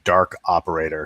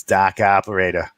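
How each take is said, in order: First: Said in the usual way. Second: Put-on dropped R, South Boston accent. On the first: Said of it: "that R is, like, non-existent where I live". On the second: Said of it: "sounding like South Boston".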